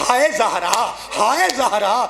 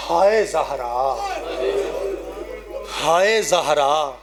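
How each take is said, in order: First: Retold lament. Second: Slow lament. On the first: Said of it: "جب کہا نا". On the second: Acted. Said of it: "یوں علی کر کے کہتے ہیں".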